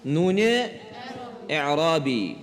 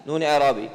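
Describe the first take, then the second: First: Term split by a long pause; slow dictation. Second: Said in the usual way. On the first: Shown as a demonstration. Teacher leads students through the term, slowly with a pause. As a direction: say نون, pause, then a lower, drawn-out اعرابی.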